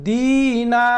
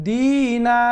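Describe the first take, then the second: No difference in how they are said.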